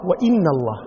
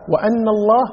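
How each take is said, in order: First: The hamza is pronounced with an i vowel. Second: The hamza is pronounced with an a vowel. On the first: A new sentence begins here. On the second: The clause is joined to the preceding sentence.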